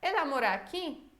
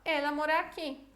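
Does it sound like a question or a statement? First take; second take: question; statement. First: It is said with question intonation. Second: It is said with statement intonation. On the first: The speaker is asking. "Como uma pergunta" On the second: The speaker is asserting it. "ou uma afirmação"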